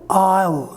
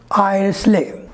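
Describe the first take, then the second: First: No S sound is heard in the word. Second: An S sound is heard in the word. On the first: The speaker calls it right. "S sound is silent in this word" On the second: The speaker calls it wrong. "Both the pronunciations are wrong"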